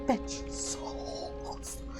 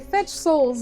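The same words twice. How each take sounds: First: It is said in a creepy, eerie way. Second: It is said in a plain, ordinary way. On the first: The speaker calls it wrong. "She said fetch souls" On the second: The speaker calls it right. "she could say fetch souls"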